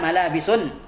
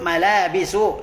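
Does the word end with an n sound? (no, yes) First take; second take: yes; no. First: The word ends in u followed by n. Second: The word ends in a plain u vowel. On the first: The speaker calls it wrong. "la taqulna malabisun" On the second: The speaker calls it right. "Fa naqul malabisu"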